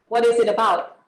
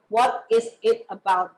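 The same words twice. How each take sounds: First: The words run together quickly and smoothly. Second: Each word is pronounced separately and clearly. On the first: "It's very fast" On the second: "we try to enan- enunciate our word"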